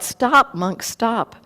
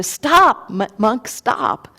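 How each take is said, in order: First: Calling out. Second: Sudden high yell, then fading; shout. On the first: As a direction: shout stop after him. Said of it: "he called out". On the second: Bandit yelling after the monk, loud high shout then fading. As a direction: call him to halt, loud at first. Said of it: "he yells to the Buddha". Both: Acted.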